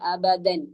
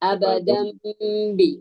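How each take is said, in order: First: It ends in an n with the tongue touching. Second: It ends in a nasal m before bi. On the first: The speaker calls it wrong. "നാക്ക് തട്ടുന്നത് നൂനിന്റെ മഹ്റജിലാണ്" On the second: The speaker calls it right. "ആ ഫതഹു തൻവീനിന് പകരം മീമാക്കി"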